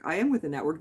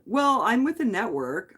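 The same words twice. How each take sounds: First: "am" spelled out and stressed, not contracted. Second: Said in the usual way. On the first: Real, not acted. Streamer correcting chat's doubt, stressing am. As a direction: insist by hitting "am".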